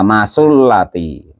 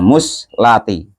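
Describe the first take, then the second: First: The first vowel is a, then u follows. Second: The first vowel is u, no vowel follows. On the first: "dibaca fathah mimnya wa dhammi sa'i dan dibaca domah saknya" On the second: "dibaca domah mimnya wa sukun sa'i dan dibaca sukun saknya"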